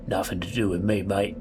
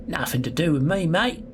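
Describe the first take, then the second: First: Put-on London accent, evenly pitched; Londoner accent. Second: Put-on Australian accent slipping out, higher and rising on mate; botched English accent. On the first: Gamer retrying a prisoner's line in a London accent. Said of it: "like, Londoner". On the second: Gamer attempting a prisoner's English accent, coming out Australian. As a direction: aim for English, land in Australian. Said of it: "That's Australian".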